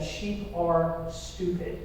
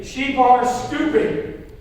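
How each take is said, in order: First: Said in the usual way. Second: Raised, slow, drawn-out declaration; emphatic call-out. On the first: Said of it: "Okay, repeat after me". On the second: Shown as a demonstration. Preacher leading the congregation to repeat after him, emphatic. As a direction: punch it out slowly for a crowd to repeat. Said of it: "say it like you mean it".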